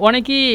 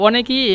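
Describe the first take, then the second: Both takes have the same delivery.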